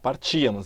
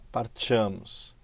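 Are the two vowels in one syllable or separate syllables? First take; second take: separate syllables; one syllable. First: The two vowels fall in separate syllables. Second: The two vowels glide together in one syllable. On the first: The speaker calls it right. "A gente fala partíamos. As duas são fortes" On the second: The speaker calls it wrong. "A gente não fala partíamos"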